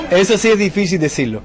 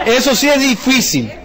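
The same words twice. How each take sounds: First: Said in the usual way. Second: Drawn out slowly through a laugh, up high. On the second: Shown as a demonstration. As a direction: laugh as you stretch it out. (diciéndolo despacio entre risas, con tono alto)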